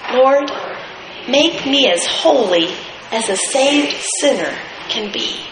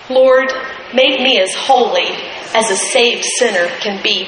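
First: The sentence is read very slowly. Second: The sentence is read at a normal pace. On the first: "just real slowly" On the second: "Would you read that with me?"

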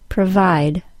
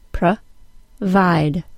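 First: The word is said smoothly as one unit. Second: The word is split into separate syllables. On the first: "and then again as the whole word" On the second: "then by syllable"

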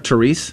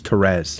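First: The name is said with an Americanized pronunciation. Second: The name is said with its original pronunciation. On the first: This is how other people call her. The speaker calls it wrong. "when they call her Therese, I'm like, that's not her name" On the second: This is the name she was given. The speaker calls it right. "Her name is Therese"

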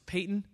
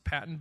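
First: The first vowel is long, as in 'pay'. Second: The first vowel is short, as in 'pat'. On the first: This is how Scottish people say the name. The speaker calls it right. "anyone from Scotland will vigorously tell you it's Peyton" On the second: This is how an outsider said the name. The speaker calls it wrong. "he pronounced it Patton"

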